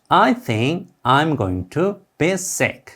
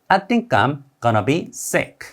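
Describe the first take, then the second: First: The words are said separately, with full going to. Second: The words run together, with going to as gonna.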